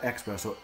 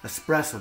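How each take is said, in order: First: The word begins with an 'ex' sound. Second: The word begins with an 'es' sound. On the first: The speaker calls it wrong. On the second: The speaker calls it right.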